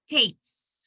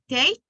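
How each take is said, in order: First: The word ends with a clear S sound. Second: The word ends without an S sound. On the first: The speaker calls it right. "Leave like the is like the S sound at the end" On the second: The speaker calls it wrong. "it sounds like if you say take, even if you are trying to say takes"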